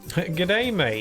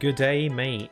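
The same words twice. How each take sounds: First: It is said in an imitated foreign accent. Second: It is said in the speaker's normal accent. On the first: "I can't say g'day, mate, without imitating the accent" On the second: "I could try saying it without the accent"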